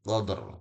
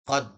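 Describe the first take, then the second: First: The word ends with an audible r sound. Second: The word ends without any r sound. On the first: The speaker calls it right. "tapi qadr" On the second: The speaker calls it wrong. "bacanya bukan qad"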